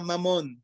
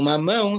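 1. Termina em um som simples de 'on', 'mamon'. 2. Termina em uma vogal nasal portuguesa, 'mamão'.

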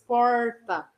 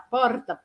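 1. O R é curvado para trás, como o R do inglês. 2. O R é uma vibrante com a ponta da língua. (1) "Falar aquele R caipira que parece o R do inglês" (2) "falo com a língua vibrando, a ponta da língua vibrando"

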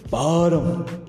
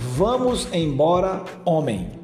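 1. A frase é espremida em cerca de duas sílabas. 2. Cada sílaba da frase é dita por completo. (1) "a gente diz só assim" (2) "você pode dizer assim"

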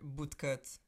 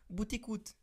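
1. Duas sílabas, sem vogal entre o t e o c. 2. Três sílabas, com uma vogal acrescentada depois do t. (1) "em vez de dizerem bootcut" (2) "passam a palavra para português do Brasil e dizem buticut"

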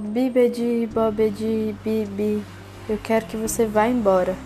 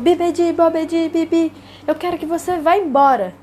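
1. É dita baixinho e fraca. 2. É dita em voz alta e forte. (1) "achou que ela estava falando muito fraco" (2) "ela tinha falado alto e forte"

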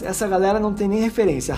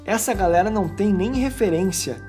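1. A frase é lida de forma simples, sem expressão encenada. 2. A frase é lida com entonação expressiva e encenada.

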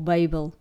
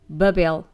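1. O nome pronuncia-se à inglesa. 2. O nome pronuncia-se à portuguesa.

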